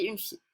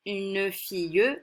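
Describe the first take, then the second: First: "fille" ending clean on the L, mute E silent; correct pronunciation. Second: "fille" with the final E sounded, slow: fi-eu; wrong pronunciation. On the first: Teacher giving the right form, "fille" with silent final E. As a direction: say "une fille" with no sound after the L. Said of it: "on dit une fille". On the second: Teacher showing pupils the wrong way, final E of "fille" pronounced. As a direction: slowly sound the mute E at the end of "fille". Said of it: "On ne dit pas". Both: Shown as a demonstration.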